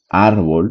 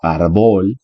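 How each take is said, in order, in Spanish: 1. La sílaba tónica es la primera. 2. La sílaba tónica es la última. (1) "una palabra grave suena más fuerte en la penúltima sílaba" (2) "no árbol, que sería agudo así"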